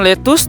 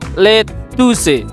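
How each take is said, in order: First: It is pronounced with the English sounds. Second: It is read letter by letter, as spelled. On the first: "kita mengucapkan lettuce" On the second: "tulisannya nanti adalah lettuce"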